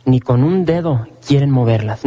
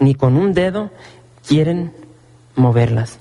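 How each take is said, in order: First: Said in the usual way. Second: "ni con un dedo" set apart, then pause before "quieren" and "moverlas"; slow, word by word with pauses. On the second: Shown as a demonstration. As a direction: spell it out one phrase at a time for emphasis. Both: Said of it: "Y esta es la clave".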